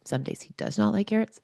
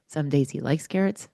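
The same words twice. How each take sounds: First: "not" lifted high against "likes"; stress on not. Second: Said in the usual way. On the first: Shown as a demonstration. Telling listeners her son sometimes refuses carrots, "not" stressed high. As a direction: pitch up on "not" to contrast days she likes carrots.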